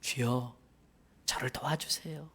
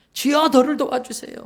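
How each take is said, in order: First: Whispered plea, soft and desperate; pleading whisper. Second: Louder, higher desperate cry; crying plea. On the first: The mother begs Jesus in a hushed whisper. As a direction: breathe the plea like a secret prayer. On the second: The mother cries out to Jesus, louder and higher. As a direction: cry it out to be heard. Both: Acted. 간절히 매달려요.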